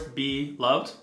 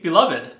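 First: It sounds like two separate words. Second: It sounds like one joined word. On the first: "almost like it's two separate words" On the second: "Think like at a wedding"

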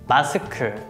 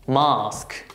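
First: It is said with Korean pronunciation. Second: It is said with British pronunciation. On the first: "Korean pronunciation" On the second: "British pronunciation"

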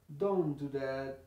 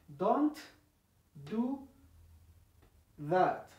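First: The t drops and flows straight into do. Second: Each word is said apart with its final t. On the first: The speaker calls it right. "La T prácticamente desaparece porque tiene la misma posición de la D" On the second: The speaker calls it wrong. "si lo separáramos, diríamos"

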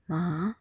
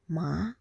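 The two takes are said the same way.

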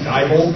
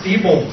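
First: The first syllable sounds like "die". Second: The first syllable sounds like "dee". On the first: The speaker calls it wrong. "I want these fucking people to die" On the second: The speaker calls it right. "it's actually pronounced Diebold"

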